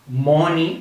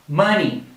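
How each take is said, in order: First: The first vowel is not an uh sound. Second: The first vowel is an uh sound. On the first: The speaker calls it wrong. "Many times people for this word say money or something similar" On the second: The speaker calls it right. "The correct pronunciation is like if you're making this sound"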